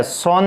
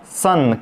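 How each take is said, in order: First: सोन with a rounded o vowel; wrong reading of son. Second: सन with a short 'uh' vowel; unrounded uh in सन; correct reading of son. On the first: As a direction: say सोन, sounding the written o. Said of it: "सोन नहीं है". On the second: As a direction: say सन to rhyme with fun. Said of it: "इसको क्या पढ़ेंगे". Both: Shown as a demonstration.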